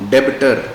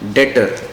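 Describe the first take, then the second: First: The b sound is pronounced in the word. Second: The b sound is silent in the word. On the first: The speaker calls it wrong. "Not डेबिटर" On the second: The speaker calls it right. "इसमें बी silent होता है, तो we pronounce it as डेटर"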